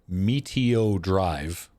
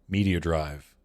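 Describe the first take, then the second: First: The phrase is said slowly and deliberately. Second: The phrase is said quickly within a list.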